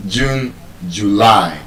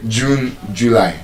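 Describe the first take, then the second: First: June, July with joo-LAI; June, July, weight on the long last syllable; stress on second syllable. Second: June, July with JOO-lai front-stressed; wrong first-syllable stress. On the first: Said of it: "The stress is on the second syllable". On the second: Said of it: "You don't say June, July". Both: Shown as a demonstration.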